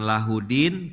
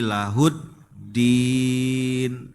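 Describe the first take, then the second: First: The d sound is short and single. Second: The d sound is held and doubled. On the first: The speaker calls it wrong. "Bukan lahudin" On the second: The speaker calls it right. "tapi lahuddin. Ada tasdid"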